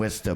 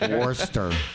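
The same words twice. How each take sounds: First: The R sounds are dropped. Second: The R sounds are pronounced. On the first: "it's because you say it like that" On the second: "if you said it the wrong way / It actually hurts to pronounce those R's"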